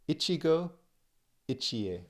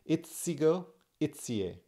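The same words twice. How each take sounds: First: The 'chi' sound is said like 'chee'. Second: The 'chi' sound is said like 'tsee'.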